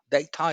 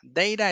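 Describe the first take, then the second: First: It is said with a British pronunciation. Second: It is said with an American pronunciation. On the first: "data es más británico" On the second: "Data es más gringo"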